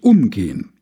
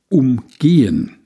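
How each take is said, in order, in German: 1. Die Betonung liegt auf der ersten Silbe. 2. Die Betonung liegt auf der zweiten Silbe. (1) "Betonung auf der ersten Silbe" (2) "betonte es auf der zweiten Silbe"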